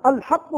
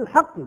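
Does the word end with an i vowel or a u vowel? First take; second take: u vowel; i vowel. First: The word ends with a u vowel. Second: The word ends with an i vowel. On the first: The guardianship itself is described as true. "إن قلنا الحق فهو وصف نعم للولاية" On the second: God is described as the Truth. "وهو الراجح بالكسر"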